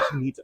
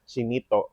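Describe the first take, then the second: First: The word is said with an English accent. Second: The word is said with a Spanish accent. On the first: The speaker calls it wrong. "said it with an English accent" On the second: The speaker calls it right. "No, it's it's Chinito"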